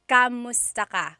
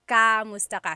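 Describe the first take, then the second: Both takes have the same delivery.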